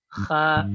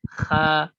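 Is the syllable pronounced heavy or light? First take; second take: light; light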